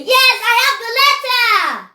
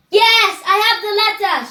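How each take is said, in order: First: Loudest-voice shout. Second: High, loud rallying shout; shouted example. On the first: Teacher urging children to shout it out, loudest-voice yell. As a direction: shout it as loud as you can, stretching the words. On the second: Teacher showing children what to shout, high shouted example. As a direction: call it out for children to copy. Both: Shown as a demonstration. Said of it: "Shout it out your loudest voice".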